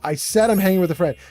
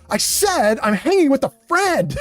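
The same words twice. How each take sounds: First: It is read in a plain, neutral tone. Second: It is read in a mean, mocking tone.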